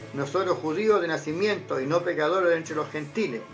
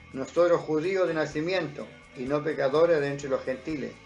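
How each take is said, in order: No difference in how they are said.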